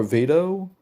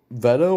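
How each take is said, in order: First: "Vito" with a long ee; "Vito" pronounced with first syllable like "vee"; VITO said "VEE-doh". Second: "Veto" with a short e, as in "vet"; "Veto" pronounced with first syllable like "vet". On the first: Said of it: "Veto or Vito?". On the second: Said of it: "I think it's pronounced Veto". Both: Shown as a demonstration.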